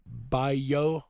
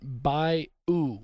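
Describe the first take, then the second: First: The word ends with an 'ah' sound. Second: The word ends with an 'oo' sound. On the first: "like B I Y A H" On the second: "B I U"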